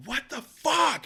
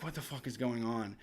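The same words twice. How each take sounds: First: High-pitched exasperated mock yell; re-enacted outburst, pitched high; retold scream. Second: Low, hushed disbelief; soft, low retold bewilderment; bewildered quiet reaction. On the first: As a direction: jump way up and cry out in disbelief. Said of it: "And I scream it again". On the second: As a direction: mutter it low, as if woken by noise. Woken by noise in the night.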